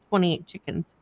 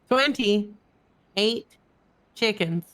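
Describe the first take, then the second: First: It is said at a normal, quick pace. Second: It is said slowly and drawn out.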